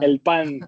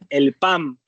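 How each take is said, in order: First: The word ends with an n sound. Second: The word ends with an m sound. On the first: This is the standard way to say it. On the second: This is how people in one region say it.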